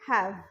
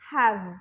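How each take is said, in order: First: The final sound is made biting the lower lip. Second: The final sound is made with both lips closed. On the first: The speaker calls it right. "so you have to say have bite it have" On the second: The speaker calls it wrong. "they close the lips so like have have এরম না"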